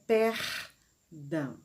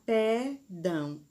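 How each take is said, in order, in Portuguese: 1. O R da primeira sílaba é pronunciado. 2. O R da primeira sílaba está ausente. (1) "a palavra correta é perdão" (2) "Se nós esquecermos de colocar este R, a palavra não vai ficar correta"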